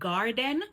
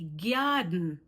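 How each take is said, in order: First: The g is said without a y-glide. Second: The g is followed by a y-glide. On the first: "instead of saying garden" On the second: "we say garden"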